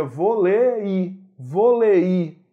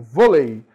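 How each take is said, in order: First: "vôlei" drawn out with the stress on the final i, vo-le-Í; "vôlei" slowly, with a strong stressed I at the end; wrong stress. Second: "vôlei" stressed on VÔ, with a weak final i; correct stress. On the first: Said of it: "a palavra não seria vôlei". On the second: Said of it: "Mas aqui eu tenho vôlei". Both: Shown as a demonstration.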